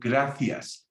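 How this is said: The c is said as a th sound. "in Spain, they go, gracias, th"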